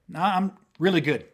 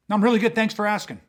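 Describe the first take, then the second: First: Said in the usual way. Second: Drip with sarcasm, like you mean the opposite; annoyed thanks that means leave me alone; sarcastic. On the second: Shown as a demonstration. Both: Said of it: "there's so much sarcasm".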